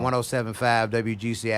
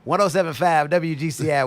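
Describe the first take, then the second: First: It is said in a flat, unsmiling voice. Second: It is said in a bright, smiling voice. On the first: The speaker calls it wrong. "so you're not on that" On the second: The speaker calls it right. "Smile when you talk"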